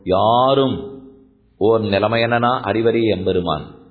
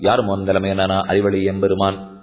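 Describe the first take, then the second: First: The line is recited with marked, varied tone. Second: The line is recited in a plain, even tone. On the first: The speaker calls it right. "you must articulate your tone" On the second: The speaker calls it wrong. "This is a normal tone"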